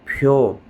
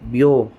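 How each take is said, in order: First: The consonant is said with a slight puff of air. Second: The consonant is said without a puff of air.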